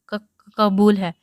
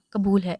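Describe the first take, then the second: First: Halting, slow, tearful stammer; sobbing. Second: Said in the usual way. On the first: A narrator's reading. Bride at her nikah, sobbing her consent. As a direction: choke the words out between sobs. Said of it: "Iram نے روتے سسکتے ایک آہ بھرتے کہا". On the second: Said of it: "روتے سسکتے".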